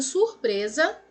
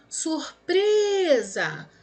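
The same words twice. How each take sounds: First: Said in the usual way. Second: SURPRESA with PRE held long and high; stretched stressed syllable. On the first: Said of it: "qual seria a classificação de surpresa". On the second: Shown as a demonstration. Teacher tests the word's stress for pupils, stretched stress. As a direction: call out "Surpresa", dragging the PRE. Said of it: "paroxítona".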